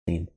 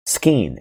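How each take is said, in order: First: The word starts with s and no k sound. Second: The word starts with an audible k after s.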